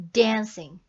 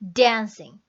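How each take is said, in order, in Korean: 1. 첫 음절은 세게, 두 번째 음절은 약하게 발음합니다. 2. 첫 음절은 세게, 두 번째 음절은 약하게 발음합니다.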